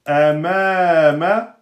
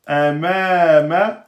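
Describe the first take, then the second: The two takes are said the same way.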